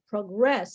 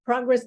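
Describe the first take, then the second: First: Slow proGRESS, verb form, end syllable stressed; stress on second syllable. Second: PROgress, noun form with stressed first syllable. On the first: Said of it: "the accent would be in the second syllable". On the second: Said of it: "there is a noun". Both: Shown as a demonstration.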